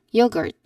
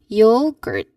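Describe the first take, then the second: First: The word is said faster. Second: The word is said slowly. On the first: "a little faster, more natural" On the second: "try saying yogurt slowly"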